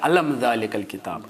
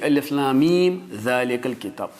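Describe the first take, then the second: First: The letters are joined into one word. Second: Each letter name is said separately. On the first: The speaker calls it wrong. "कोई नहीं पढ़ता है" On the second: The speaker calls it right. "इसको हमेशा काट के ही पढ़ना है, अलग अलग पढ़ना है"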